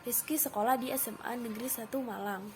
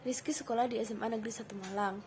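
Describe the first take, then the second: First: The sentence is said with high intonation. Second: The sentence is said with flat, low intonation. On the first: "biasanya menggunakan intonasi tempo yang tinggi" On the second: "intonasi yang datar atau rendah"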